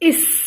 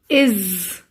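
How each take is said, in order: First: The word ends with a hissing s sound. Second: The word ends with a buzzing z sound. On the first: It is built by blending the letter sounds. The speaker calls it wrong. "by joining the sounds like I, s, is" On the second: It is read as a sight word. The speaker calls it right. "we say is, z, z"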